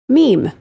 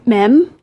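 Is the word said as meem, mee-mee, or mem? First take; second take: meem; mem. First: One syllable with a long 'ee' vowel. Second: One syllable with a short 'e' vowel. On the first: The speaker calls it right. "Meme is the correct pronunciation" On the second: The speaker calls it wrong. "It is not m- mem"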